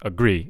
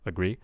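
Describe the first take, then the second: First: The stressed syllable is pushed very hard. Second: The stressed syllable is given moderate weight. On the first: The speaker calls it wrong. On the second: The speaker calls it right.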